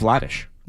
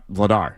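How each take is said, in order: First: The name ends in a Czech 'rzh'-like sound. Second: The name ends in a plain English 'r'. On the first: This is how the player himself says it. The speaker calls it right. "His was Daniel Vladish" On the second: This is how people have been saying it for years. The speaker calls it wrong. "not Vladar, as we've known him"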